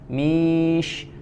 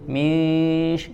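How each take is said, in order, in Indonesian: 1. Bunyi n menyatu ke arah bunyi sh. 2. Bunyi n menyatu ke arah bunyi sh.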